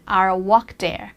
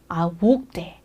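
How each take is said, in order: First: It is said in an American accent. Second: It is said in a British accent. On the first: "미국 발음일 텐데" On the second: "이렇게 들리죠"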